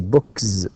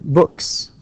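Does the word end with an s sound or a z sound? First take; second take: z; s. First: The word ends with a voiced z sound. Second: The word ends with a voiceless s sound. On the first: The speaker calls it wrong. "with z, it will be very difficult. You can't say books" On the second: The speaker calls it right. "that would be books"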